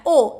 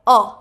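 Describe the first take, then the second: First: "O" said as a plain Portuguese o; wrong vowel. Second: "O" said as a short open English o, lower and louder; right short o. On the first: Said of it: "Não é O". ("O" errado, como em português) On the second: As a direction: give "O" its English sound as in octopus. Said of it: "é O". ("O" certo, como em octopus) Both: Shown as a demonstration.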